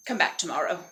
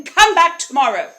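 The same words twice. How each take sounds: First: Lower, offhand dragon dismissal; dismissive dragon. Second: Loud, high dragon dismissal; exasperated dragon. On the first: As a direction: send her away in a dropped voice. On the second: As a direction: holler it to send her off. Dragon's second, firmer dismissal. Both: Acted.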